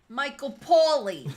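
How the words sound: It is said in a New Capenna accent.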